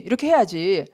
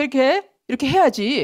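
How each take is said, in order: First: Lower, falling final 해야지; lower settled lecturing. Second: Higher insistent telling-off on 해야지; mock lecturing. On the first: Retold or imitated. Law teacher lecturing people, lower closing tone. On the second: Law teacher lecturing people, raised insistent tone. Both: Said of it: "하고 율법 교사가 된다는 거예요".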